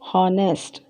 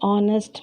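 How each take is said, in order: First: The word begins with an audible H sound. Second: The word begins with a silent H. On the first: The speaker calls it wrong. "You're not supposed to say" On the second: The speaker calls it right. "Instead we say"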